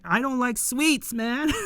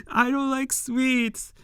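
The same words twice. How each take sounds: First: Said in the usual way. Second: Drawn-out, a bit higher, as a grumpy refusal; slow mock grumble. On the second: Fan replaying the character turning down pudding, slowed for laughs. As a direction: stretch the refusal slowly for the joke. Repeats the line slowly, laughing.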